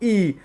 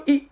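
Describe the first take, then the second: First: ई drawn out as a long held vowel. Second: ई said as a quick clipped short vowel. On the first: Teacher shows the class the long ई. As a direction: stretch ई out long. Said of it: "कैसी रह रही है दोस्तों? लंबी". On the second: Teacher shows the class the short ई. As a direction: say ई short, cut it off fast. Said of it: "छोटी ई means ई". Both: Shown as a demonstration.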